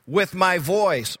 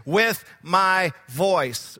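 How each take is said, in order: First: Said in the usual way. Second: "With my voice" said very slowly, each word weighted, "With" punched; stress on With my voice. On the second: Shown as a demonstration. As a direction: linger on "With my voice" to drive it home. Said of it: "I want to point out a couple of things".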